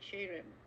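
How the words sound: The word begins with a ch sound.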